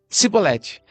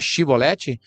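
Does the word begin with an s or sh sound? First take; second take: s; sh. First: The word begins with an s sound. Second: The word begins with a sh sound.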